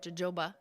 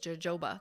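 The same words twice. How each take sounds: First: The word begins with an H sound. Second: The word begins with a J sound.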